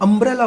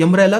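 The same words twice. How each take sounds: First: अम्ब्रेला said with a clear short "uh" vowel at the start; correct pronunciation. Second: अम्ब्रेला mispronounced on purpose, the way students wrongly say it; wrong pronunciation. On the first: Teacher gives students the correct way to say umbrella. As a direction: open अम्ब्रेला on a plain "um" sound. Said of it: "अम्ब्रेला बोलते हैं". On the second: Teacher shows the class the wrong way to say umbrella. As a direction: say अम्ब्रेला the wrong way, as a mistake to avoid. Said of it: "अम्ब्रेला तो नहीं बोलते हम लोग". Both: Shown as a demonstration.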